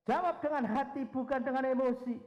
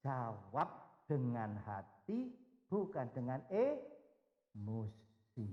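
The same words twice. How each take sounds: First: High and loud, Jawab and emosi hammered; loud emphatic charge. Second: Slow, low and calm counsel; gentle and slow. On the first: Real, not acted. Preacher charging the congregation, loud and high. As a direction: proclaim it to the room. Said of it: "repeating the key point". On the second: Retold or imitated. The Lord speaking to Peter's heart, slow and gentle. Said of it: "berbicara secara khusus dengan hati Petrus".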